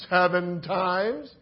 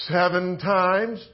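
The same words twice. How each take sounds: First: Slow rising query; slow questioning repeat. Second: Slow, self-satisfied reply; slow proud answer. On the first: Shown as a demonstration. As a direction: draw out seven times as a doubtful question. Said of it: "repeats Peter's answer questioningly". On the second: Acted. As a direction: draw out seven times, pleased. Peter's answer, drawn out.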